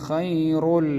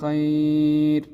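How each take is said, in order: First: A heavy r links into the next word. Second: The word ends on a thin, light r. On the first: The reciter continues without stopping. "നിർത്താതെ നമ്മൾ ചേർത്തി ഓതുകയാണെങ്കിൽ റാഇൻ്റെ സാദാ തഫ്ഖീമായ ശബ്ദത്തിലാണ്" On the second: The reciter stops at this word. "വഖഫ് ചെയ്യുന്ന സമയത്ത് നമ്മൾ തർക്കീക്കാക്കി നേർപ്പിച്ചിട്ട് ആണ് നമ്മൾ അവിടെ ഉച്ചരിക്കേണ്ടത്"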